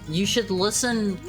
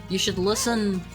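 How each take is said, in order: Both takes have the same delivery.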